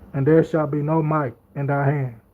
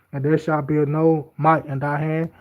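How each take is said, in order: The two takes are said the same way.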